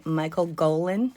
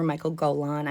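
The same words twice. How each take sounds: First: Golan with the accent on GO; stress on first syllable. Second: Golan with the accent on LAN; stress on last syllable. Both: Shown as a demonstration. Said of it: "not sure where the accent goes".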